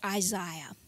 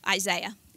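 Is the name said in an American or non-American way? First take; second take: non-American; American. First: The name is said with a non-American pronunciation. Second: The name is said with an American pronunciation.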